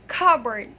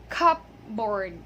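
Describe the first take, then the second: First: The P is silent, with two weak vowels. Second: The P is sounded, like cup plus board. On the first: The speaker calls it right. "the P there is silent, and the vowel sounds there are schwa sounds" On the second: The speaker calls it wrong. "most of the people pronounce this word as cupboard"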